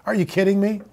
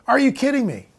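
First: Soft, muttered disbelief under the breath; quiet incredulous mutter. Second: Higher, stronger disbelief, still soft; higher incredulous repeat; rising disbelief. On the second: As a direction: let the pitch climb in disbelief. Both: Acted. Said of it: "repeated with growing emphasis".

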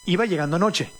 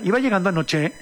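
First: Said in the usual way. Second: "anoche" rising like a question; statement as question. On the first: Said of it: "Es una afirmación". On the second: Shown as a demonstration. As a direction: say "Iba llegando anoche" with an uptalk rise at the end. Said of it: "te lo hacen como pregunta".

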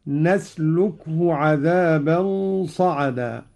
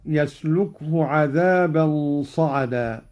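First: نسلكه said "nasluk-hu", starting with n; slow recitation, begin نسلكه on an n sound; nun of majesty. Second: يسلكه said "yasluk-hu", starting with y; slow recitation, begin يسلكه on a y sound; initial ya. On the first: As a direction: open نسلكه with "na". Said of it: "بنون العظمة هكذا". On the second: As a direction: open يسلكه with "ya". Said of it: "قرأ قالون بنون العظمة". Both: Shown as a demonstration.

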